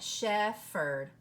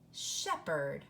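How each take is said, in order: First: The middle consonant is an f sound. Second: The middle consonant is a p sound. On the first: The speaker calls it wrong. "pH can say pho. And so you might try it" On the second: The speaker calls it right. "The H is silent"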